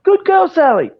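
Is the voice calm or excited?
excited. It is said in an excited, high-energy voice.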